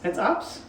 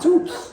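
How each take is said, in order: First: The vowel sounds like the one in 'up'. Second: The vowel sounds like the one in 'boot'. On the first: The speaker calls it wrong. "It's Ups? No" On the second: The speaker calls it right. "you can pronounce oo as, uh, oo is oo"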